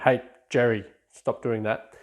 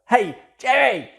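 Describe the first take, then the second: First: It is said in a low, quiet voice. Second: It is yelled in a loud voice.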